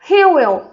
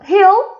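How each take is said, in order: First: Both words are said separately and in full. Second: The two words merge into one short syllable.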